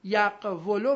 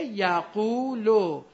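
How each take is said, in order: First: یقولو as yaq-wu-lu, consonant w after a closed q; unshifted form. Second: یقولو as ya-QUU-lu, long drawn u; no w sound in یقولو, just a long uu; vowel moved to q. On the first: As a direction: sound out یقولو slowly with short u on the w. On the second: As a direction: stretch یقولو slowly into ya-quu-lu. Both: Shown as a demonstration.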